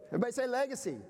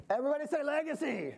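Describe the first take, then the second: First: Said in the usual way. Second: Higher, urging the crowd to repeat; rally them to call it back. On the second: Shown as a demonstration.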